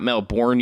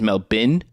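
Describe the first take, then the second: First: The name is said the American way. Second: The name is said the local way. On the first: The speaker calls it wrong. "It is not Melbourne, you you silly Americans" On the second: The speaker calls it right. "It is Melbourne"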